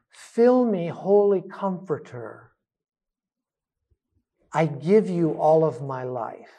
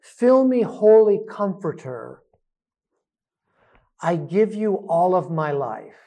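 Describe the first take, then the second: First: Slow breath prayer. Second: Spoken breath prayer at normal pace; prayerful. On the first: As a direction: let it ride slowly on the breath. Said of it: "So when we breathe in". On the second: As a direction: say the prayer aloud, steady. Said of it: "use your own language". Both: Shown as a demonstration.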